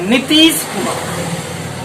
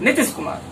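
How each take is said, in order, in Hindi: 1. पहले दो स्वर लंबे बोले जाते हैं। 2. पहले दो स्वर छोटे बोले जाते हैं। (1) "नी पे भी टाइम है, ती पे भी टाइम है" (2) "तो हो जाएगा हर्ष विकार"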